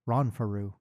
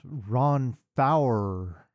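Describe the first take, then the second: First: The name ends with a 'roo' sound. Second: The name ends with an 'er' sound. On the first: The speaker calls it wrong. "it is not, in fact, Ronfaru" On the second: The speaker calls it right. "It is Ron Fowler or something"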